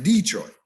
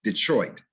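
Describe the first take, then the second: First: DETROIT as DEE-TROIT; both syllables hit. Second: DETROIT as di-TROIT, weak first syllable; second-syllable stress. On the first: Diction teacher repeating the error to avoid, both syllables hit. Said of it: "you're hitting both syllables". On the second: Diction teacher repeating the correct form, second syllable stressed. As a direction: land only on the TROIT of Detroit. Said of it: "not Detroit". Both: Shown as a demonstration.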